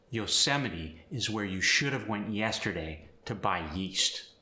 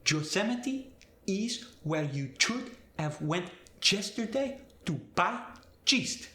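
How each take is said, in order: First: Said in the usual way. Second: Spanish accent, Yosemite, yesterday, yeast with a J, much higher. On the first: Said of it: "For instance". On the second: Shown as a demonstration. Teacher demonstrating Y to J, Spanish accent. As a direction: turn every Y to a J, Spanish style. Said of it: "Y sound gets changed to the J sound".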